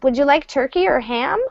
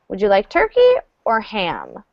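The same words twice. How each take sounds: First: The voice rises at the end. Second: The voice falls at the end.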